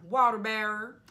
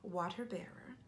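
First: Loud, stretched put-on accent on "Water bearer"; belting "Water bearer" in a silly accent; odd accent. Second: Whispered "Water bearer"; hushed "Water bearer", said under the breath. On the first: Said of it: "I don't know where that accent came from". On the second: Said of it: "that accent came from". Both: Shown as a demonstration.

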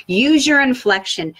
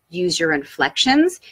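First: "inflection" said higher and louder, with swooping pitch; lively inflection. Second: Said in the usual way. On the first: Shown as a demonstration. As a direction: demonstrate a big swing on "inflection".

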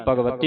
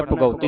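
First: ਭਗਵਤੀ as one joined word with a "v", bhag-va-ti; correct ਭਗਵਤੀ. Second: ਭਗਉਤੀ with "au" in place of "va", bha-gau-ti; quick wrong reading ਭਗਉਤੀ, no v; mistaken ਭਗਉਤੀ. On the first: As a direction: model ਭਗਵਤੀ run together, v sounded. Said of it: "ਭਗਵਤੀ ਇਕੱਠਾ ਪੜ੍ਹਨਾ". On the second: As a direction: misread it as bhagauti. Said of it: "ਭਗਉਤੀ ਨਹੀਂ ਪੜ੍ਹਨਾ ਇਹਨੂੰ". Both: Shown as a demonstration.

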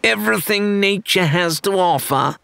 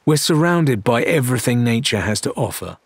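First: High mocking echo of her words; sing-song mockery pitched up; mocking parrot. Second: Disgusted. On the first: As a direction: parrot her back to needle her. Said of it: "Rathbone parroted". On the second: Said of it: "Mercia made a disgusted sound". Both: A narrator's reading.

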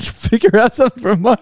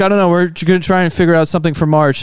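First: High, disbelieving repeat through a laugh; laughing, can't believe it; incredulous echo. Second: Said in the usual way. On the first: Retold or imitated. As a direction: throw the words back in disbelief. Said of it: "I was like". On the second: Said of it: "It's like".

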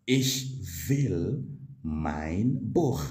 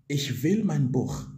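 First: Slow, careful German model line; slow model sentence. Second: Said in the usual way. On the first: Shown as a demonstration. Teacher slowly modelling the German sentence for students. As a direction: spell it out slowly for the learner. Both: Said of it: "You will simply say".

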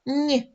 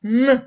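First: Lone soft Н, palatalized as нь. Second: Lone hard Н, pushed out loud. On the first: Teacher asking pupils to compare, soft Н as нь. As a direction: say Н as нь, tongue to the palate. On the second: Teacher asking pupils to compare, loud hard Н. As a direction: say Н hard and loud, not palatalized. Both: Shown as a demonstration. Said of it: "Порівняйте".

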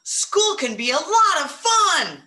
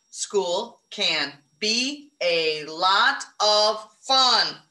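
First: Higher and louder, full of excitement; excited. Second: Very slow, word by word; slow counting. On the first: Teacher modelling an excited sentence for her class, excited. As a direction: sell the exclamation point to the class. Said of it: "With an exclamation point at the end, 'cause you're excited". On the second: Teacher counting words aloud with the class, slow. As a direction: space out each word to count it. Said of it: "Count 'em". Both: Shown as a demonstration.

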